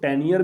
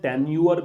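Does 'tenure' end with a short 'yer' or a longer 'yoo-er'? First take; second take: yer; yoo-er. First: The word ends with a short 'yer' sound. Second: The word ends with a longer 'yoo-er' sound. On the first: "इसको टेन्यर भी पढ़ सकते हैं" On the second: "टेन्यूअर भी पढ़ सकते हैं"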